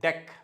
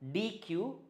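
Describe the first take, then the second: First: It is spoken as one short syllable, deck. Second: It is spoken as two separate letter names. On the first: The speaker calls it right. "you should call it as deck" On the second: The speaker calls it wrong. "Most of us pronounce it as D Q"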